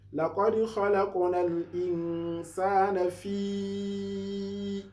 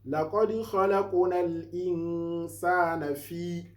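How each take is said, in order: First: The long vowel is held for four counts. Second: The long vowel is held for two counts. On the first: It is recited with the permitted lengthening. "If if it is four, ... by counting four" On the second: It is recited without the permitted lengthening. "Two maddi is for like you to uh, read it by counting one, two"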